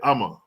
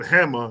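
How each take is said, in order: First: The word begins without an h sound. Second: The word begins with an h sound. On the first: "they'll pronounce the H silent" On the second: "instead of saying hammer"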